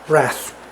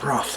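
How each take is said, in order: First: The word is said with an American pronunciation. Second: The word is said with a British pronunciation. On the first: "if you are American" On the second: "in England, we say"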